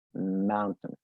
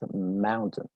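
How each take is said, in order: First: The second syllable is reduced, almost gone. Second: The same.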